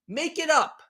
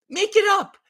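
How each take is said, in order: First: Said in the usual way. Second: Incredulous. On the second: Acted. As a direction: throw it up high, unable to believe it. Repeats phrase, rising in disbelief.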